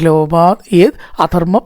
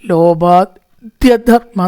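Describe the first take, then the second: First: The words are said as three separate words. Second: The words are run together into one word. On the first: The speaker calls it right. "ലോഭാത് plus യത് plus അധർമ്മ" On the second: The speaker calls it wrong. "ബുദ്ധിമുട്ടി വായിക്കണ്ട"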